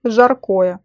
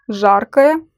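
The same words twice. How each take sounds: First: "жаркое" stressed on the middle syllable, zhar-KO-ye; full stressed O in the middle of "жаркое"; stress on second syllable. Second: "Жаркое" stressed on the first syllable, ZHAR-ka-ye. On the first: Teacher showing learners how stress changes meaning, "жаркое" stressed on KO. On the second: Teacher showing learners how stress changes meaning, "Жаркое" stressed on ZHAR. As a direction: hit ZHAR in "Жаркое", reduce the rest. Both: Shown as a demonstration. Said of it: "meaning of the word depends on it".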